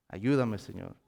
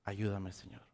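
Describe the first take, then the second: First: Said in the usual way. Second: Soft, pleading "Ayúdame, Señor" barely voiced; faint prayer to the Lord; hushed plea. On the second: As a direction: murmur the plea under the breath. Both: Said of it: "Porque Pedro gritó".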